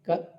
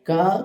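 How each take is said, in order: First: The vowel is kept short. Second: The vowel is drawn out long. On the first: The speaker calls it right. "ఇలా పలకటం అలవాటు చేసుకోండి" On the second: The speaker calls it wrong. "దీర్ఘాలు లేని చోట దీర్ఘాలు"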